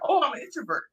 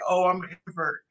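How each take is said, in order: First: It is said in a positive, upbeat tone. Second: It is said in a negative, downbeat tone. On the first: Being an introvert is nothing bad. The speaker calls it right. "instead of saying" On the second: Being an introvert is something bad. The speaker calls it wrong. "look at it as a negative thing to say"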